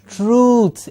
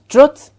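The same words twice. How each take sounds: First: The vowel is a long oo. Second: The vowel is short, like uh. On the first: The speaker calls it right. "It is a long oo sound" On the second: The speaker calls it wrong. "it is not truth"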